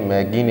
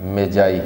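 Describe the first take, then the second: First: It is said with a hard g sound. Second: It is said with a j sound. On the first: The speaker calls it wrong. "इसकी pronunciation मैगी नहीं है" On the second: The speaker calls it right. "बल्कि क्या है, मेजाई है"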